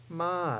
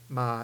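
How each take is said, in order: First: The pitch falls from high to low. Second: The pitch stays low and level. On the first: "ma is the drop tone" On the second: "ma is the low tone"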